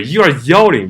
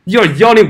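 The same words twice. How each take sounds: First: Said in the usual way. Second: Yelling punched much higher and louder; stress on yelling. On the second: Real, not acted. Calling out protesters who shout at drivers, stress on yelling. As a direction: hit the word yelling hard, pitch jumping up.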